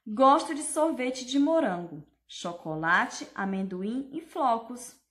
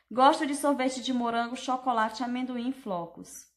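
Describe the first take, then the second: First: "Gosto de sorvete de morango, chocolate, amendoim e flocos" with a pause at each comma. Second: "Gosto de sorvete de morango, chocolate, amendoim e flocos" run together without a pause; no comma pauses. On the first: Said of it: "eu dei uma pausa onde tinha a vírgula". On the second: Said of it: "fingir que aqui não tem vírgula". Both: Shown as a demonstration.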